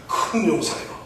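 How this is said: It is said in a composed, solemn voice.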